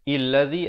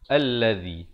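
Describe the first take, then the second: First: The word begins with an i vowel. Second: The word begins with an a vowel. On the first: The speaker calls it wrong. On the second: The speaker calls it right. "Di sini kena baca allazi"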